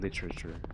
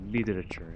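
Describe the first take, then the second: First: The middle consonant sounds like a crisp T. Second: The middle consonant sounds like a soft D. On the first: "instead of" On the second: "I like to say it with a with a D"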